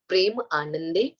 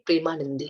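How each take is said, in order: First: The word is split into two separate parts. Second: The word is said joined without a break. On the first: "break करके बताऊँ" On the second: "जिसको बोलेंगे प्रेमानंदी"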